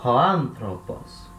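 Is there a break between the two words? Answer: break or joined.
joined. The two words run together as one word. The speaker calls it right. "eu junto as duas como se fosse uma palavra só"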